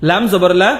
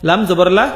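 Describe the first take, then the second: No difference in how they are said.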